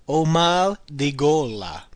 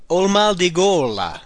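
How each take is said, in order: First: Slow, deliberate repeat of the phrase. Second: Slow, careful Italian model phrase. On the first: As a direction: repeat it slowly for learners. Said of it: "Again, literally translated as". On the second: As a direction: lay out each word for the learner. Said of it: "The next one". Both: Shown as a demonstration.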